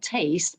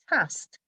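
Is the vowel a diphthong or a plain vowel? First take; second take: diphthong; plain vowel. First: The vowel is a gliding diphthong. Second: The vowel is plain, rhyming with last. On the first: This is the modern pronunciation. "not taste" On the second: This is the older pronunciation from Shakespeare's time. "tast, not taste, because the so-called face diphthong didn't exist at the time"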